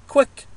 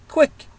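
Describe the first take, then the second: The two takes are said the same way.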